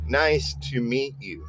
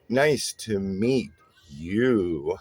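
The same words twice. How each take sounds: First: Stressed and unstressed syllables alternate evenly. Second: The stress falls away from the usual syllables. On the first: A friendly greeting to someone new. The speaker calls it right. "it's a stressed syllable followed by an unstressed syllable" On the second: The greeting sounds menacing and scares someone off. The speaker calls it wrong. "If you if you mixed up a trochaic sentence, you could imply a different meaning"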